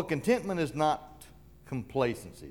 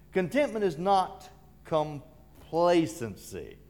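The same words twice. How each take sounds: First: Said in the usual way. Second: "complacency" drawn out slowly after a short break; slow, spaced statement landing on "complacency"; slow emphatic repeat. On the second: Real, not acted. Preacher restating what contentment is not, slow and emphatic.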